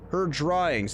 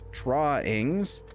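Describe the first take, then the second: First: Said in the usual way. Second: "drawings" drawn out with a questioning rise; skeptical stress on drawings. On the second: Real, not acted. Doubting that bullet holes count as art, skeptical, rising "drawings". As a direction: say "drawings" slowly, lifting the end in doubt.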